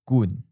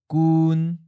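First: The pitch starts mid and falls. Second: The pitch stays mid and level. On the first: "That's third tone" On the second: "That's seventh tone"

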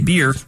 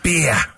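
First: The word is said in a plain American accent. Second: The word is said in an Australian accent. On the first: "They don't say beer" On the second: "That's how they say. It's beer"

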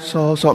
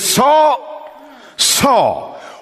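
First: It is said gently and kindly. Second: It is said with intensity, calling out.

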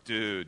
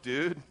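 First: It sounds let down and disappointed. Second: It sounds like a puzzled question.

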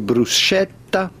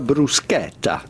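First: The middle consonant is a soft sound, not K. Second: The middle consonant is a hard K sound. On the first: The speaker calls it wrong. "do not say bruschetta" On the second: The speaker calls it right. "the CH here is pronounced like it was a K"

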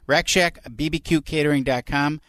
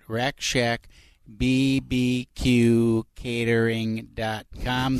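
First: It is said at normal speed. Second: It is said slowly.

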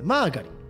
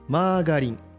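First: The emphasis falls on the first syllable. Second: The emphasis falls on the second syllable. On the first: "最初に少しちょっと強めに言ってですね" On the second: "ガにちょっと強調する感じですね"

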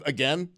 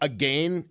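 First: It is said with a non-Canadian pronunciation. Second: It is said with a Canadian pronunciation.

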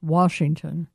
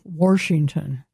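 First: No R sound follows the first vowel. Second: An R sound follows the first vowel. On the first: The speaker calls it right. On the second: The speaker calls it wrong.

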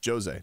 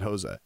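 First: The name begins without an H sound. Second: The name begins with an H sound. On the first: This is how the person himself says it. The speaker calls it right. "J is pronounced like an H. Not with him. He's Jose" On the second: This is how the name is usually read. The speaker calls it wrong. "not Jose"

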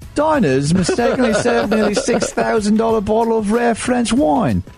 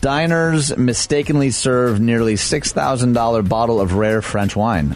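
First: It is read in a put-on English accent. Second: It is read in the speaker's own accent.

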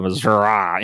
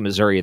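First: It is said with a southern drawl. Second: It is said in a plain standard accent. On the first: "They get a southern draw" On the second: "they don't say Missouri"

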